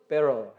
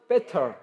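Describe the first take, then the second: First: It is said in an American accent. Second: It is said in a British accent.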